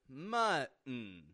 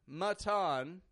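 First: The middle T is a glottal stop. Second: The middle T is fully released. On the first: The speaker calls it right. "We're using the glottal T in the middle" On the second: The speaker calls it wrong. "notice I'm not saying mutton"

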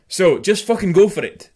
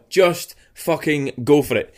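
First: The final g of fucking is dropped. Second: The final g of fucking is clearly pronounced. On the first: The speaker calls it right. "See, that's better" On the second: The speaker calls it wrong. "See, I'm saying the G now"

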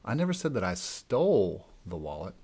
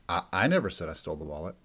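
First: The stress is on the word stole. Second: The stress is on the first word, I.

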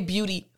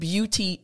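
First: Said fast with the t sound dropped. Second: Said slowly with a clear t sound. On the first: "when I say beauty fast, you don't hear that t" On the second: "When I say the word beauty slowly, you hear the t come out"

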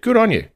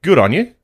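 First: The voice falls at the end. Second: The voice rises at the end. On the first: The speaker sincerely praises the listener. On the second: The speaker is being sarcastic and does not mean the praise.

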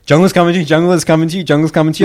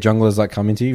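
First: It is said quickly and with urgency. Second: It is said in a relaxed, casual way.

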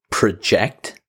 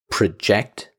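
First: The stress is on the second syllable. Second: The stress is on the second syllable.

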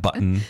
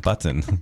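First: The t sound is reduced or swallowed. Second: The t sound is fully and clearly pronounced. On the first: The speaker calls it wrong. "It's not button" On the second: The speaker calls it right. "That's not over enunciating. It's B-U-T-T-O-N"

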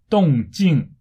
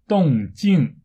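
Both takes have the same delivery.

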